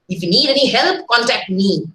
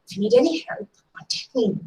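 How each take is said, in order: First: It sounds firm and authoritative, like an order. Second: It sounds warm and genuinely meant. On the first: Do not seek help anywhere else. "I'm almost, uh, I mean, uh, laying down an order" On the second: The offer to help is genuine. "I really mean what I say"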